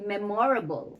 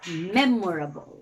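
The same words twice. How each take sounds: First: The stress is on the second syllable. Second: The stress is on the first syllable. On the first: The speaker calls it wrong. "you don't say" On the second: The speaker calls it right.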